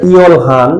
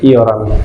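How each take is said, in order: First: An l and h are sounded in the middle. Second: An r sound replaces the l and h. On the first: The speaker calls it wrong. "উচ্চারণটা ইয়ল হান এটা হবে না" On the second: The speaker calls it right. "উচ্চারণটা হবে ইয়রান"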